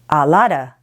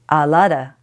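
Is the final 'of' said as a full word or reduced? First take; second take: reduced; reduced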